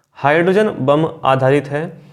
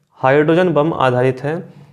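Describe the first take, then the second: No difference in how they are said.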